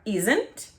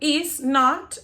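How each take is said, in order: First: The words merge into one contracted syllable. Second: Both words are said fully and separately. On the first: "o som vai ficar isn't" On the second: "sempre que a gente tiver o is not"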